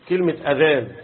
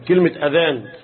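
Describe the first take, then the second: The two takes are said the same way.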